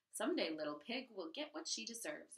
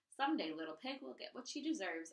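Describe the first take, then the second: First: Declared. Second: Threatening. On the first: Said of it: "Amoni declared". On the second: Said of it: "Amoni threatened". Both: Acted.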